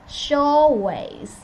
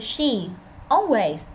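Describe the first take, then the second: First: The two words run together without a pause. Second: The two words are separated by a pause. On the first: The speaker calls it right. "They say she always" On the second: The speaker calls it wrong. "They didn't say she. Always"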